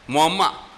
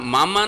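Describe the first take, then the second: First: The first vowel is rounded toward 'o'. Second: The first vowel is a plain 'a' sound.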